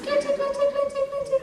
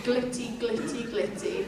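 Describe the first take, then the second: First: "glitty, glitty" sung out high; high call. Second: Very quietly. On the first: Teacher calls the dragons with "glitty" high and clear. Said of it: "you just go". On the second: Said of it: "Very quietly". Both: Shown as a demonstration.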